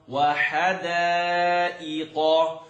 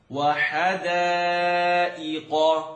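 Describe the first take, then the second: No difference in how they are said.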